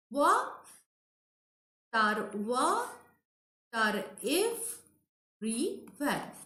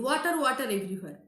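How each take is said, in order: First: "Wa... tar... wa... tar... everywhere", long pauses between the pieces; scanned syllable by syllable. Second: Said in the usual way. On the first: Shown as a demonstration. Teacher showing students the scansion, "water" split into separate syllables. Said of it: "This is the scansion". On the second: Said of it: "this line again".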